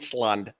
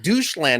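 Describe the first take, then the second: First: The first syllable has an 'oy' vowel. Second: The first syllable has an 'oo' vowel. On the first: The speaker calls it right. "no, it's Deutsch, Deutschland" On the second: The speaker calls it wrong. "the way it's spelled, I called it doucheland"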